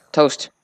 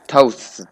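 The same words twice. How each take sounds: First: Said in the usual way. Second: Toasts with the final s pressed onto the st; plural toasts. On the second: Shown as a demonstration. Showing viewers the hard English plural: toasts. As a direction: add a hissed plural s to toast. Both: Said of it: "try saying toast in the plural form".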